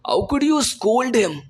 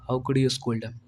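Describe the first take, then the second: First: It is said with lively, scolding expression. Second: It is said flatly, without expression. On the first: The speaker calls it right. "अब इसी तरह मुझे English में भी बोलना पड़ेगा" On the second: The speaker calls it wrong. "मैं ऐसे नहीं बोल सकता"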